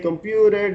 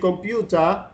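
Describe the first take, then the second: First: It is said with an American accent. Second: It is said with a British accent.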